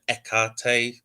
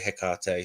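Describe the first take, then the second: First: The word begins without a hard H sound. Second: The word begins with a hard H sound. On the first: This is the ancient Greek way of saying the name. "there was no hard H, and so it was more like a Hecate sort of sound" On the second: This is the speaker's own way of saying the name. "but I say Hecate"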